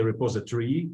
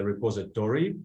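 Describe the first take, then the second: First: "repository" ending in a short -tree; variant with reduced ending. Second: "repository" ending in a full -tory; variant with full ending. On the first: Teacher shows what some people say, "repository" ending -tree. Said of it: "Some people say repository". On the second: Teacher shows the other variant, "repository" ending in full -tory. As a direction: open out the end of "repository" to re-POS-i-tory. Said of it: "some people say repository". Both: Shown as a demonstration.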